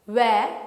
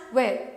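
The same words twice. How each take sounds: First: Where in a British accent, no r; British where with the r dropped. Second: Where in an American accent with a clear r; American where ending on r. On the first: Teacher contrasting British and American where. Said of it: "Britishers pronounce it where". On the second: Teacher contrasting American and British where. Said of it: "Americans call it where". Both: Shown as a demonstration.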